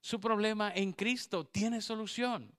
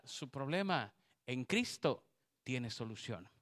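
First: Su problema en Cristo tiene solución, higher and louder; loud proclaimed repeat. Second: Said in the usual way. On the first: Shown as a demonstration. Preacher repeating the promise to the women, louder. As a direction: hammer the promise home. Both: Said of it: "repeated louder".

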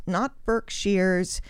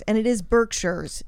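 First: "Berkshires" drawn out slowly as berk-SHIRES; wrong pronunciation. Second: "Berkshires" said BERK-sherz, plain ending; correct pronunciation. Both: Shown as a demonstration. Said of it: "That is wrong".

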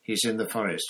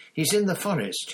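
First: Said in the usual way. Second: High, loud urgent repeat; louder, shouting. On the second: A narrator's reading. Harry shouting the news again at Snape. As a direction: shout it so he finally listens. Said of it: "Harry shouted".

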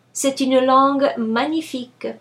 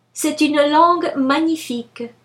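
No difference in how they are said.

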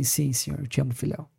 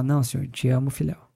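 First: Resposta triste, mais baixa e mais suave; muito triste. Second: Said in the usual way. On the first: Retold or imitated. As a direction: responde abatido, com a voz caindo. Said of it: "Daí ele, muito triste". (Pedro responde a Jesus, muito triste e baixinho)

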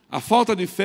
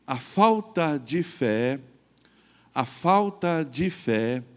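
First: "falta" hit higher and louder; emphatic. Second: Falta de fé drawn out slowly, each word weighed; slow emphasis. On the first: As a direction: punch "A falta de fé" up high and loud. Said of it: "ela gera preocupação que traz o medo". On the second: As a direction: stretch "falta de fé" out slow and heavy. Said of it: "ela gera medo na gente". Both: Shown as a demonstration.

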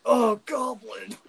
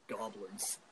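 First: High, loud, drawn-out mock moan; hammed-up, louder passionate outcry; Goblin Slayer. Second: Low, very quiet single word; hushed, deep-pitched character impression; Goblin Slayer. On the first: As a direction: cry it out slowly in joking ecstasy. Imagines Goblin Slayer during sex. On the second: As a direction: mutter it low like a grim hunter. Impersonating the Goblin Slayer's one-word line.

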